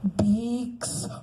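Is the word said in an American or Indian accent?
Indian. It is said in an Indian accent. The speaker calls it right. "you have to speak Indian English"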